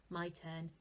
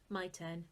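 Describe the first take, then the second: Both takes have the same delivery.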